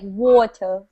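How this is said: It is said in a British accent. "I don't have a British accent, but it's something like water"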